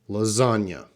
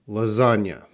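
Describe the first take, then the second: No difference in how they are said.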